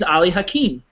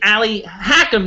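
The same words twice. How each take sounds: First: The name is pronounced the original way. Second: The name is pronounced the anglicized way. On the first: This is how the name really sounds. The speaker calls it right. "but in reality, he's Ali Hakim" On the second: This is how the film says the name. The speaker calls it wrong. "they call him, which I don't mind the mispronunciation of the name"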